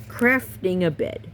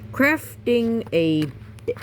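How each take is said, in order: First: Said in the usual way. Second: Dramatic title read. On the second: Shown as a demonstration. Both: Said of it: "repeated plainly".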